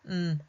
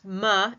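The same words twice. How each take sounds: First: The consonant is said alone with no vowel. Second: The consonant has an added vowel after it. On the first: The speaker calls it right. "a clean m" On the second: The speaker calls it wrong. "incorrectly pronounced"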